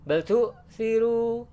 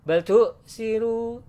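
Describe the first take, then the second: No difference in how they are said.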